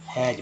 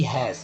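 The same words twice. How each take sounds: First: हैज said as "haij", falling; हैज with ज for the final s; j-ending pronunciation. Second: हैज said as "hais", hissed final s; हैज ending on voiceless s; wrong s ending. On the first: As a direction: end हैज on a voiced j. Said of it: "क्या बोलते हैं?". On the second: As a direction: say हैज with स at the end. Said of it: "ऐसा नहीं पढ़ते कि". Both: Shown as a demonstration.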